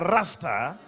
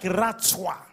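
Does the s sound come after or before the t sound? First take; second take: before; after. First: The s sound comes before the t sound. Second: The s sound comes after the t sound. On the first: The speaker calls it wrong. "it's not pronounced like a Rasta" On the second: The speaker calls it right. "It's pronounced like Ratsah"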